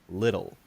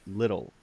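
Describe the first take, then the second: Both takes have the same delivery.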